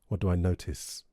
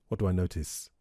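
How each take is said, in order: No difference in how they are said.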